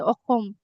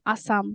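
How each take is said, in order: First: The middle consonant is a raspy kh sound. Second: The middle consonant is a hissing s sound. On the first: This is the name in the local language. "in Assamese, in our language, we say Okhom" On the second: This is the English name. "In English, we say Assam"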